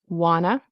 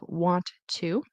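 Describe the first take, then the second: First: The words are reduced into one word. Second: The two words are said separately. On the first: "a lot of native speakers will say wanna" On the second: "Instead of want to, which you can"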